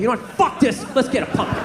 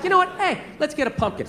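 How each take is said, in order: First: It is said in an angry, aggressive tone. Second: It is said in a calm, friendly tone.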